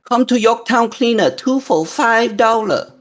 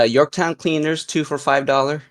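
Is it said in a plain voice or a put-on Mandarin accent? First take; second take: Mandarin accent; plain voice. First: It is said in a put-on Mandarin accent. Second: It is said in the speaker's plain voice.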